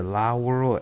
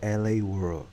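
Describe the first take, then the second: First: "La World" with La said "lah"; one-word La. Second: "L A World" with L A said "el ay"; spelled-out L A. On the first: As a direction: read La in "La World" as one syllable, not two letters. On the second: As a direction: read L and A in "L A World" as two letters. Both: Shown as a demonstration. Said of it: "Is it La World or L A World".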